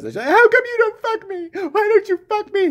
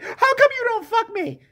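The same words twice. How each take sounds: First: Louder mock plea. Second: Much higher whiny plea; hammed-up high demanding whine; mock needy wife. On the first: Wife demands sex again, louder mock whine. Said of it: "Legit, she says". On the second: Wife demands sex from husband, high mock whine.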